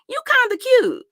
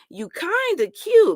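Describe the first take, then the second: First: The emphasis is not on kind of. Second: The emphasis is on kind of. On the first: The person is simply found somewhat attractive. The speaker calls it right. "I could have rolled with that" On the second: The speaker is struggling to see any attractiveness. The speaker calls it wrong. "where you put the emphasis at on the kinda"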